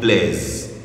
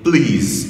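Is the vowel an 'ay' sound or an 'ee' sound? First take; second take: ay; ee. First: The vowel is an ay-like sound. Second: The vowel is a long ee sound. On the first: The speaker calls it wrong. "et non plaise" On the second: The speaker calls it right. "Please et non plaise"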